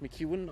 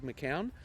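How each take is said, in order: First: The name is said like McEwen, without a k. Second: The name is said as spelled, with a k. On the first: "I think it's pronounced McEwen" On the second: "I'm trying to pronounce it in the way that it's spelt"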